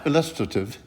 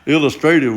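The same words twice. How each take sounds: First: It is said in a British-style accent. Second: It is said in a Southern US accent. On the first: "You have to do it more British style" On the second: "would be the way I'd say it when I was down south at home"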